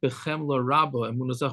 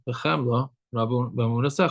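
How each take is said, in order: First: The words run together without any pause. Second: There is a pause after the first word. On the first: Belief in you comes with great pity. The speaker calls it wrong. "Not Bechemla Rabba Emunasecha" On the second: Pity belongs to the giving back of the soul. The speaker calls it right. "one should make a separation between the word of Chemla and the word Rabba"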